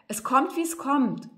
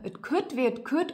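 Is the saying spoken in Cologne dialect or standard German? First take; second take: standard German; Cologne dialect. First: It is spoken in standard German. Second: It is spoken in Cologne dialect.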